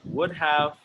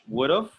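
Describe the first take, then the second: First: Both words are said fully and separately. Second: The two words blend into one contracted form. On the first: "that's how they look" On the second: "usually we pronounce them like"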